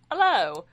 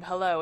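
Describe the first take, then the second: First: Hello said loud with a dropped h, as "'ello"; hello with the h dropped, dialect-style; eye dialect hello. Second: Said in the usual way. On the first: Shown as a demonstration. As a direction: drop the h in hello and punch it. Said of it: "written out the way that they actually speak it". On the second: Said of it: "instead of saying".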